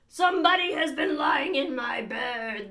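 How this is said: It is said in a great rough, gruff voice.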